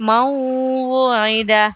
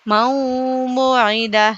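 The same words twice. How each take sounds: Both takes have the same delivery.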